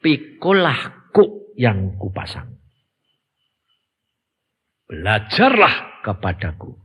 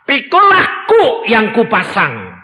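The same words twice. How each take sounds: First: "Pikulah kuk yang kupasang" said low, soft and slow; softer quote. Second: "Pikulah kuk yang kupasang" said high, loud and slow; preached high. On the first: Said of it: "Yang kamu harus ingat apa?". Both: Shown as a demonstration.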